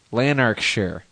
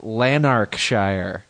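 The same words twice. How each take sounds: First: "Lanarkshire" with a reduced final vowel; -shire like "sher". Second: "Lanarkshire" drawn out, ending like "shyer"; -shire like "shyer". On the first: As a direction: end "Lanarkshire" on a short "sher". Repeats it with other ending. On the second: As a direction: say "Lanarkshire" with a full "-shire" rhyming with fire. Says the place name two ways. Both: Shown as a demonstration.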